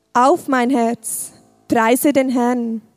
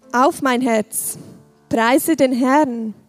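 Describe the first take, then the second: No difference in how they are said.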